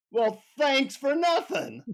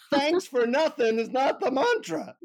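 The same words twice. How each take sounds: First: High, drawn-out sarcasm; sarcastic. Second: High, emphatic guru rebuke; scolding guru. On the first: Pissed-off traveler answers the guru, sarcastically. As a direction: stretch it out with mock thanks. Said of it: "like, sarcastically say". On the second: Guru rejects the traveler's sarcastic thanks, scolding high. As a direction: imitate an indignant guru correcting a pupil. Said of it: "he looks at me and he says". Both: Retold or imitated.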